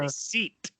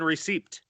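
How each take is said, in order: First: The P sound is left silent. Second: The P sound is clearly pronounced. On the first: The speaker calls it wrong. "It's not" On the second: The speaker calls it right. "There's a P in receipt"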